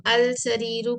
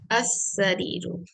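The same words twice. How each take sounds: First: अल सरीरु with the L clearly sounded, al sareeru; teacher's planted error, अल सरीरु with a spoken L; deliberate mistake. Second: असरीरु with a silent lam, L merged into a doubled S, as-sareeru; careful slow correction, असरीरु with no L heard; correct sun letter. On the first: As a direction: say अल सरीरु wrongly, pronouncing the lam before the seen. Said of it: "अब मैं जो पढ़ रही हूँ ... correct है ये?". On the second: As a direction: slowly say असरीरु, the L swallowed into the S. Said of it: "क्योंकि सीन हुरूफ शम्सिया में से है". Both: Shown as a demonstration.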